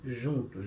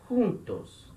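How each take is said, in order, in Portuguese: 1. Começa com um som suave, parecido com zh. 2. Começa com um som gutural, parecido com h. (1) "E não juntos. Juntos é português" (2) "a letra J em espanhol tem o som de R"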